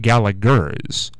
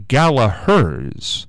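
First: "Gallagher's" said slowly as GAL-uh-gurz; slow "Gallagher's" with a hard second g; hard g pronunciation. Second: "Gallagher's" said slowly as GAL-uh-herz; slow "Gallagher's" with an h sound replacing the second g; silent g pronunciation. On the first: Radio host showing his mistaken drugstore name, "Gallagher's" with hard g. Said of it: "which is how I'd been pronouncing it". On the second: Radio host correcting the drugstore name, "Gallagher's" with h for g. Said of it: "not Gallagher's". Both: Shown as a demonstration.

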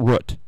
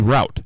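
First: Root with a short oo, as in foot; short-vowel pronunciation. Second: Route rhyming with out; "rout" pronunciation. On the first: Host rejecting the other way, short-vowel root. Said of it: "not root". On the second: Host saying what it should be, route as "rout". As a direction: say route with an ow vowel. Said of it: "it should be route". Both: Shown as a demonstration.

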